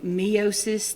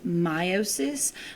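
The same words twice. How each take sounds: First: The first vowel is said following the letter E. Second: The first vowel is said the standard way. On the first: "I'll be saying meiosis to help you make the difference" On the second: "The proper way to pronounce this is meiosis"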